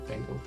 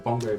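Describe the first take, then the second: First: It starts with 'ben' and ends in 'gal'. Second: It starts with 'bon' and ends in 'go'.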